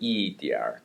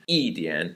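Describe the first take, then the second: First: The word ends with an r sound. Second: The word ends without an r sound.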